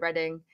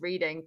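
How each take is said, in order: First: It sounds different from the everyday word reading. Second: It sounds like the everyday word reading. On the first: This is how locals say the place name. The speaker calls it right. "But over here we call it Reading" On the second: This is how outsiders assume the place is said. The speaker calls it wrong. "who I'm sure you guys thought it was pronounced reading because our language is weird"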